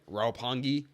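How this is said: It is said with an American pronunciation.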